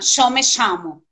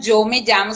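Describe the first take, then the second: First: It is said in an Argentine Spanish accent. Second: It is said in a general, non-Argentine Spanish accent. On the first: "sino falam yo me chamo, que é bem puxado esse som deles" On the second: "eles não falam yo me llamo"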